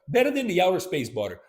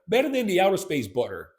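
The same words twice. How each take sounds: The two takes are said the same way.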